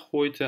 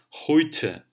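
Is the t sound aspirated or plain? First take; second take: plain; aspirated. First: The t is said without a puff of air. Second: The t is said with a puff of air. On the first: The speaker calls it wrong. "мы говорим не просто хойте" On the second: The speaker calls it right. "а хойте"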